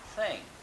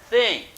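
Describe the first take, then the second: First: The th sound is smooth and light. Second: The th sound is forced and effortful. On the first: "Depois você vai adquirir essa suavidade" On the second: "No começo"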